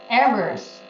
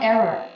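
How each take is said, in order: First: The final S sound is clearly pronounced. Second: The final S sound is left off. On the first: The speaker calls it right. "you should pr pronounce the S very well" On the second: The speaker calls it wrong. "and not error"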